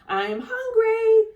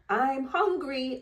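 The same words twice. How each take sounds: First: It is yelled loudly. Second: It is said at normal loudness.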